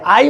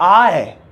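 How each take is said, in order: First: The word ends with an 'ee' sound. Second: The word ends with an 'eh' sound. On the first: The speaker calls it wrong. "इसे आई मत बोलना" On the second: The speaker calls it right. "इसे बोलते हैं आए"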